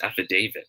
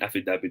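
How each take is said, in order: First: The 'da' syllable has a long 'day' vowel. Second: The 'da' syllable has a short vowel. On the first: The speaker calls it right. "it should be pronounced as affidavit. Yung da will be pronounced as day, long A" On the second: The speaker calls it wrong. "dito sa atin, sabi natin affidavit of loss"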